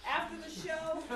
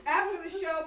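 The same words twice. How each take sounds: First: Giggling through the words; cracking up mid-read; laughing. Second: Giggling restart of the line; laughing. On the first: Reader breaks into laughter. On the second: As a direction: still laughing through it. Retake while still laughing. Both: Real, not acted.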